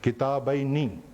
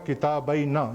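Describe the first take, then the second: First: The final syllable ends in an 'ee' vowel. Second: The final syllable ends in a short 'a' vowel. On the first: The speaker calls it right. "ये गलत है, किताबैनी" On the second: The speaker calls it wrong. "नसब में नून पे जबर लगी हुई है, वो गलत है"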